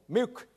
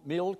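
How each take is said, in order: First: The L sounds like a vowel. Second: The L is pronounced as a consonant.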